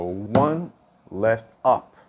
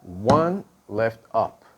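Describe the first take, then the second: First: Slow, deliberate counting of the sticking. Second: Slow, deliberate repeat of the count; slow sticking count. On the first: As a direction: count it out slowly for the student. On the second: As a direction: count it out slowly again. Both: Shown as a demonstration. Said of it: "So one left up".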